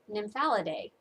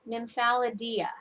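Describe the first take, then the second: First: The word ends with an '-idae' sound. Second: The word ends with an '-idia' sound. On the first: This follows the proper technical spelling. The speaker calls it right. "it's supposed to have an A E, which would make it" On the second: This follows the designer's spelling. The speaker calls it wrong. "The way she pronounces it is"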